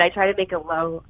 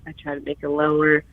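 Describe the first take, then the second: First: Lower voice. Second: Pushed down into a lower register. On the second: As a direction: try to drop the voice down. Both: Shown as a demonstration.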